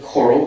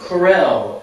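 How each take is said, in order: First: It sounds like the word coral. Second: It sounds like the brand name Corel. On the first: This is the intended pronunciation. "you can pronounce it like this, like a coral reef" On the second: Someone else once said it this way. "I heard somebody actually, this is true, Corel"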